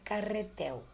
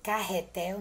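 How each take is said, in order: First: The R is pronounced with a weak sound. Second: The R is pronounced with a strong sound. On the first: The speaker calls it wrong. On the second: The speaker calls it right.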